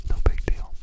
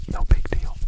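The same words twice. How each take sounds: The two takes are said the same way.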